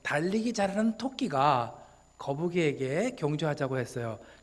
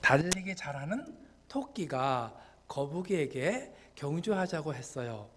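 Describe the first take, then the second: First: It is read in fewer, longer chunks. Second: It is broken into many short chunks.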